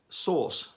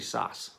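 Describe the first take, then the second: First: It is said in a British accent. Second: It is said in an American accent. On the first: "as we would call it" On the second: "just say sass. And you immediately sound"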